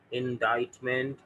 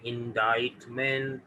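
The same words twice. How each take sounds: The two takes are said the same way.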